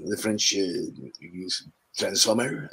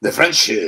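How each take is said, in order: First: French accent. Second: Said in the usual way. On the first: Shown as a demonstration. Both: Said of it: "turn up as a French one".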